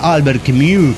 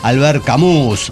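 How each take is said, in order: First: The name is said with a French-style pronunciation. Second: The name is said with a Spanish-style pronunciation. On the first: The speaker calls it right. "habría que decir" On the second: The speaker calls it wrong. "estaría mal decir"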